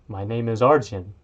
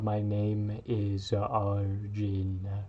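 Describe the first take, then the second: First: It is said at normal speed. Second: It is said more slowly.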